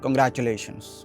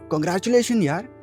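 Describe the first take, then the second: First: It sounds flat and unenthusiastic. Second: It sounds warm and excited.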